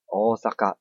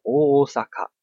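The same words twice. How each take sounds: First: Osaka with O drawn long. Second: Osaka with a short O. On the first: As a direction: hold the O in Osaka. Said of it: "是Osaka就可以了". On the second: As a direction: clip the O in Osaka. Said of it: "我们不会念作". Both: Shown as a demonstration.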